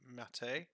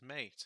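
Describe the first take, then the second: First: It has two syllables, with the final E sounded. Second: It has one syllable, with the final E silent. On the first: This is the pronunciation the community uses. "the Linux community insists that this is pronounced Mate" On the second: This is the pronunciation the speaker chooses to use. "I don't see an accent above the E, so I will refer to it as Mate"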